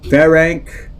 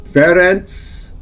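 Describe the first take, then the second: First: Ferenc ending in nk, FEH-renk; pronounced with nk. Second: Ferenc ending in a ts sound, FEH-rents; pronounced with ts. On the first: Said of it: "depending on the language that name is from". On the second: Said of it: "kind of a T Z sound". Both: Shown as a demonstration.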